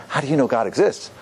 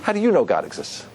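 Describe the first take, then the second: First: "exists" lifting as a real question; sincere question. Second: "you" punched, then falling away on "exists"; challenging statement. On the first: Rabbi showing how a real question sounds, sincere, rising on "exists". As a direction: ask it openly, rising on "exists". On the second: Rabbi showing a question as attack, challenging stress on "you". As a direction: make it a challenge, leaning on "you". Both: Shown as a demonstration. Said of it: "Do you hear the difference?".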